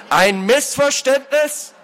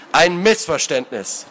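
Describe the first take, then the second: First: High, slow incredulous outburst; like a whipcrack. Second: "Missverständnis" slowly, syllable by syllable; every syllable stressed. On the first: Lord cutting off the culprit's excuse, outraged. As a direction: throw it back in outrage. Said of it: "erschallte wie ein Peitschenknall". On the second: Lord scorning the excuse, "Missverständnis" stressed on every syllable. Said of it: "betonte jede Silbe des Wortes". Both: A narrator's reading.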